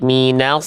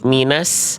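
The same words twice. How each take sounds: First: The s is thick from its very start. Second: The s starts thin, like a plain s. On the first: The speaker calls it right. "tapi langsung naik" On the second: The speaker calls it wrong. "jangan nyentuh sin dulu"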